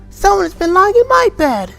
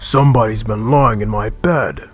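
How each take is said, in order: First: It is said in a small, wee voice. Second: It is said in a rough, gruff voice.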